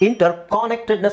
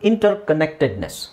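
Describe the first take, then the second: First: The vowel in 'con' is a full open sound. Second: The vowel in 'con' is a short reduced sound. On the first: The speaker calls it wrong. "ಅಂತ ಹೇಳಿದ್ರು ಪರವಾಗಿಲ್ಲ ಸ್ಟಾರ್ಟಿಂಗಲ್ಲಿ" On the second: The speaker calls it right. "ಅದು ಅ ಅಂತ ಹೇಳಬೇಕು"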